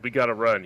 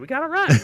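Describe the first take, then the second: First: The voice stays steady and tough. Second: The voice cracks while saying it.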